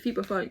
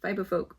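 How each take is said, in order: First: The name is pronounced with Danish sounds. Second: The name is pronounced with English sounds. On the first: "if I speak Danish, I call it Fiberfolk" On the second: "If I speak English, I call it Fiberfolk"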